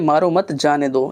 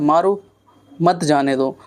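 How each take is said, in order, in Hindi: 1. विराम दूसरे शब्द के बाद आता है। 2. विराम पहले शब्द के बाद आता है। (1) "यहाँ पे कहाँ पे रुक रहे हैं, मारो मत" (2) "यहाँ पे हम रुके हैं, मारो"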